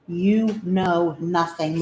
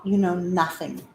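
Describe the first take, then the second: First: "You know nothing" drawn out slowly, stress on "You"; slowed tease. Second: Said in the usual way. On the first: Acted. Owner teasing her dog with a slow, drawn-out "You know nothing".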